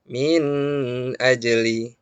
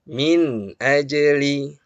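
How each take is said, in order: First: The nun sound is held too long. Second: The nun sound is clear and not held. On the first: The speaker calls it wrong. "jangan kita baca min ajli. Nah, ini keliru" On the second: The speaker calls it right. "Harus jelas terdengar, tetapi jangan juga ditahan lama"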